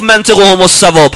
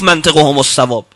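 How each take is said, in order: First: منطقهم الصواب with منطقهم raised and loud; stress on منطقهم. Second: Said in the usual way. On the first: Shown as a demonstration. Preacher lifting منطقهم to his congregation. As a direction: push the word منطقهم up and hard. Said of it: "چرا امیرالمؤمنین صفت دهم نگفت". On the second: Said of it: "همه اول گفت".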